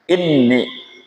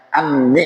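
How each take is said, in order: First: The word begins with an 'i' vowel. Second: The word begins with an 'a' vowel. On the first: "bi kasril hamzati" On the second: "bitfathil hamzati"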